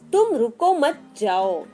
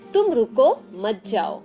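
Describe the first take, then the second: First: There is a pause after मत. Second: There is a pause after रुको.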